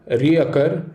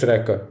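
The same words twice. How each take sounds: First: "reoccur" as ree-uh-KUR; "reoccur" with the extra syllable; wrong reoccur. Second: "recur" as ree-KUR, short; "recur" in two syllables; right recur. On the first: Teacher showing students the wrong word, "reoccur". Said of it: "invent a new word from occur". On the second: Teacher showing students the right word, "recur". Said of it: "verb recur that does the trick". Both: Shown as a demonstration.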